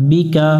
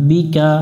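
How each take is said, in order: No difference in how they are said.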